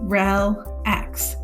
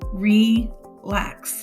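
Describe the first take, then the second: First: The first vowel is a short e sound. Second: The first vowel is a long e sound. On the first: The speaker calls it wrong. "it's a closed syllable in the first syllable, and it would be a short sound" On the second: The speaker calls it right. "we have an open syllable, which makes it a long vowel sound"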